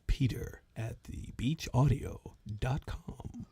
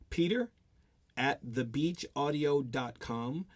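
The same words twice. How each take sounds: First: It is said in a put-on radio announcer voice. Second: It is said in an ordinary speaking voice.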